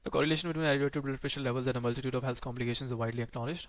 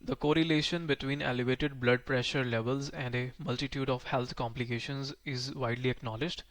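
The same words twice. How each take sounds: First: The sentence is read very fast. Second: The sentence is read very slowly. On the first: "या फिर कुछ लोग बहुत ज़्यादा स्पीड में" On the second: "कुछ लोग ऐसे रीड करेंगे इसको, लाइक दिस"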